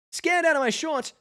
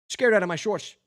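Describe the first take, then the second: First: The line pitched much higher, rising on out; higher retake. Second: Said in the usual way. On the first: Shown as a demonstration. Reader redoes the bee's line, much higher and jittery. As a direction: squeak it out like a jittery bee. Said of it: "retake after a plain read". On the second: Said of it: "repeated as a second take".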